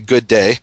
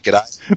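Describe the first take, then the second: First: The greeting is said as two full words. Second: The greeting is squeezed into one clipped word. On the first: This is the American greeting. "over where I come from in the U.S., we say good day" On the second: This is the Australian greeting. "when y'all in Australia greet people, you say G'day"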